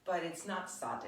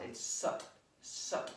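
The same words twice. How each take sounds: First: "sat" with a flat a as in cat; the mistaken "sat" with a short a; wrong sat. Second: "sut" with a short u as in but; "sut" rhymes with cut, crisp final t; the right "sut", short u vowel; correct sut. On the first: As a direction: say "sat" like the English word sat. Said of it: "it sounds like you would say sat". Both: Shown as a demonstration.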